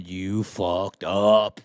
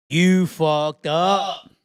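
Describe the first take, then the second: First: Low, slow, dragged out; first take, low and slow; low slow verdict. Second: Higher, louder, slow with You stressed; second take, louder and higher; louder slow verdict. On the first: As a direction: drag out fucked up low. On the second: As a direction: hit You hard and slow. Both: Shown as a demonstration.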